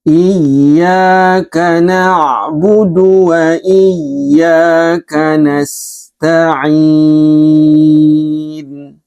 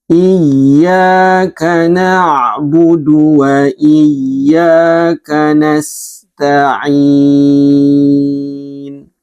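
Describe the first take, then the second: The two takes are said the same way.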